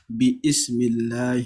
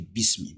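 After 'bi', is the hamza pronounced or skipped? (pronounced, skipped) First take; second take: pronounced; skipped. First: A separate glottal stop starts the second word. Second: The syllables run straight together without a glottal stop. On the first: The speaker calls it wrong. "you will never hear someone saying" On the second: The speaker calls it right. "we say Bismi"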